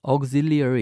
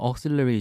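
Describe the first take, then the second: First: Every syllable is spelled out fully and slowly. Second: The syllables are run together quickly and reduced. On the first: It is read as the spelling suggests. "발음과 철자에 충실하면 auxiliary 이런 식으로 읽겠죠" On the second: This is how native speakers usually say it. "그냥 auxiliary 정도로 빨리 발음하고"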